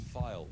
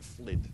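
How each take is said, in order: First: The name sounds like 'file'. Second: The name sounds like 'flid'. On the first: The speaker calls it right. "It's file, actually" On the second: The speaker calls it wrong. "I always pronounce that wrong. I always call it Flid"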